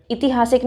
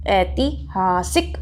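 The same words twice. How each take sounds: First: ऐतिहासिक quick, starting "iti"; wrong ऐतिहासिक. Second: ऐतिहासिक slow, starting with ऐ; syllable by syllable, ऐ-ति-हा-सिक in ऐतिहासिक; correct ऐतिहासिक. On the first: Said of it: "नहीं बोलते". (ऐतिहासिक को इतिहासिक जैसा) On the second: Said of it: "क्या बोलते हैं हम इसको". (ऐतिहासिक धीरे, ऐ से शुरू) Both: Shown as a demonstration.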